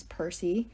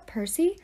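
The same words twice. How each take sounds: First: Percy low and soft, the end rising; name tossed off with disdain; Talia's scornful Percy. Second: Percy higher, rising sharply to a question; a name called as a reproach; frowning teacher's Percy. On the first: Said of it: "a perfect evil ten". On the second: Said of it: "She frowned at us". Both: A narrator's reading.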